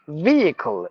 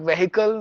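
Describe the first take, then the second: First: The first vowel is said long. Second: The first vowel is said short. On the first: The speaker calls it right. "V with the long sound" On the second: The speaker calls it wrong. "Not vehicle"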